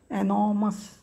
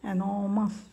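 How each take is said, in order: First: The r sound is left out in the middle. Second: The r sound is left out in the middle.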